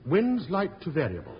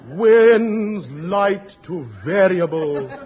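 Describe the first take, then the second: First: It is said in a plain, neutral tone. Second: It is said mournfully, like a disaster.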